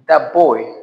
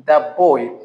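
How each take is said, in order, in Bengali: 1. 'that' শব্দটি p ধ্বনি দিয়ে শেষ হয়। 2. 'that' শব্দটি p ধ্বনি দিয়ে শেষ হয়।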